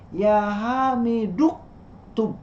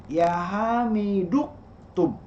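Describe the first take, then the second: The two takes are said the same way.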